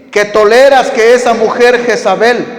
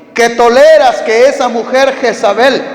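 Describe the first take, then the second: Both takes have the same delivery.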